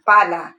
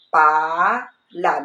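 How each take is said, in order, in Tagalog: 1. Mabilis na pinagsasama ang mga pantig at nagiging isang salita. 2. Binibigkas nang hiwalay ang mga pantig, may kaunting paghinto. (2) "Unang bigkas lang"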